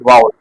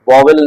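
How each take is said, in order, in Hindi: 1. शब्द के बीच में v की आवाज़ सुनाई नहीं देती: vaa-ul. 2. शब्द के बीच में v की आवाज़ सुनाई देती है: vo-vel. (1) "असल शब्द है वाउल" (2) "वॉवेल नहीं होता है, लोग जनरली गलत प्रोनाउंस करते हैं"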